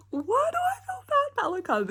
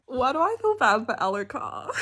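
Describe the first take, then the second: First: Much higher, squeaky whine; high anguished repeat. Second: Said in the usual way. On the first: Real, not acted.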